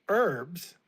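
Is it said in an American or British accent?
American. It is said in an American accent.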